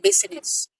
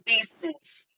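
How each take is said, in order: First: An extra 'in' sound is in the middle. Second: No extra sound is in the middle. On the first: The speaker calls it wrong. "we don't say in business" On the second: The speaker calls it right. "We say in business"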